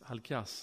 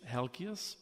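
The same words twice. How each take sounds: First: The name is said with a Greek pronunciation. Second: The name is said with an English pronunciation. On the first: "but in Greek, it's Halkias" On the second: "I know it's English, it's Halkias"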